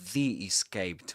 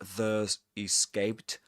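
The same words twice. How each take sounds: First: 'The' is said with a long 'ee', 'thee'. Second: 'The' is said with a short schwa, 'thuh'. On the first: The speaker calls it right. "pronounced as the right before vowel sounds" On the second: The speaker calls it wrong. "not The Escaped"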